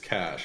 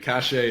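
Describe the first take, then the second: First: It is one syllable, ending in a sh sound. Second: It is two syllables, ending in an ay sound. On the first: "I believe it's it's cash if I'm not mistaken" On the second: "I like the cachet. It sounds it does, definitely sounds a little a little more fun"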